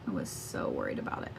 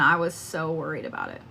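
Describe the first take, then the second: First: Hushed worried whisper; a much softer whispered echo of her worry. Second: Said in the usual way. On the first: Real, not acted. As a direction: whisper it, voice dropping away. Repeats line as whisper.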